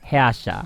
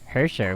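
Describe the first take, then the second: First: The word is said with German-style sounds. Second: The word is said with English-style sounds. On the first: The speaker calls it right. "but it's actually Herrscher" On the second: The speaker calls it wrong. "I'm just reading it literally in English"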